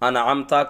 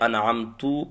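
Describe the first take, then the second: First: The word ends with an 'a' vowel. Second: The word ends with a 'u' vowel. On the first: The speaker calls it right. "अनअमता तापे ज़बर है" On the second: The speaker calls it wrong. "पेश पढ़ दिया, हरकत बदल गई"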